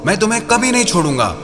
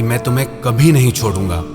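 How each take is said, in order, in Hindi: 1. इसे कठोर, गुस्से वाले लहजे में कहा गया है। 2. इसे गर्म, प्यार भरे लहजे में कहा गया है। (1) "किसी को क्रोध से कहो" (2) "प्यार से कहो"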